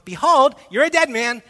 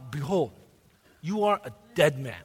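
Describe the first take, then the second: First: It is said without a put-on gangster voice. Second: It is said in a put-on gangster voice. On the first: The speaker calls it wrong. "I don't think that's the tone" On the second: The speaker calls it right. "how many of you watch the Sopranos?"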